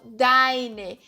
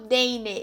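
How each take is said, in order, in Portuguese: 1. A primeira vogal soa como 'ai'. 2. A primeira vogal soa como 'ei'. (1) "eu falo deine" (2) "Aqui eu não falo deine"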